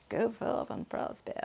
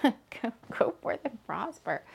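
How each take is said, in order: First: Put-on softer whispered Polish accent, rising. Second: Put-on whispered Polish accent. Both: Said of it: "I'm saying it all in the Polish accent".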